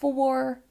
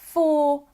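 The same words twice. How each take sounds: First: The R at the end is clearly pronounced. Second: The R at the end is not pronounced. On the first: "in another accent" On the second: "in my accent"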